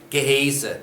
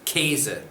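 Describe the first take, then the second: First: The word starts with separate g and h sounds. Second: The word starts with a single k sound. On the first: The speaker calls it wrong. "You will get a funny look if you try to pronounce that Gehese" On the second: The speaker calls it right. "It's Käse"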